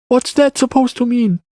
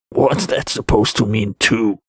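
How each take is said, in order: First: Put-on high-pitched boy's question; child character. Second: Said in the usual way. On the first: A narrator's reading. Boy questions the Wanderer's remark, high child voice. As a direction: ask back in a high child's voice.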